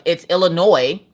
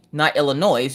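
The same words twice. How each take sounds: First: "Illinois" with a silent S, ending "noy". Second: "Illinois" with the final S sounded, ending "noise". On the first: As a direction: end "Illinois" on an open "oy". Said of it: "You don't pronounce the S". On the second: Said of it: "because I pronounced the S". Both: Retold or imitated.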